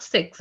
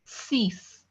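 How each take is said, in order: First: "six" pronounced the English way, siks; short i and a ks ending on "six"; wrong English six. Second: "Six" pronounced "sees", long ee, no k; correct French six. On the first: Teacher warns class against English six, wrong pronunciation. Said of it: "That's wrong". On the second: Teacher corrects to French six, French pronunciation. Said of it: "Not six". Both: Shown as a demonstration.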